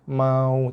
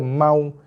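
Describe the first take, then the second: First: The waw sound is drawn out softly. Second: The waw sound is clipped with no softness. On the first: The speaker calls it right. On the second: The speaker calls it wrong. "tak nak baca mau ... tu tak ada kelunakan langsung"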